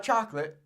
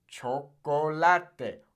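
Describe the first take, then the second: First: "chocolate" as English CHOK-lit; English pronunciation. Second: "chocolate" slow as cho-ko-la-te; Spanish pronunciation. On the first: Teacher shows learners what to avoid, English pronunciation. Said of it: "It's not chocolate". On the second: Teacher corrects the English version, slow Spanish pronunciation. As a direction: stretch "chocolate" into four Spanish syllables. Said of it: "It's chocolate". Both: Shown as a demonstration.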